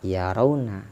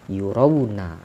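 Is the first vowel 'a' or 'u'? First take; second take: a; u. First: The first syllable has an 'a' vowel. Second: The first syllable has a 'u' vowel. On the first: They see. "Jadi bukan dibaca" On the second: They are made to see. "bidhammil ya'i"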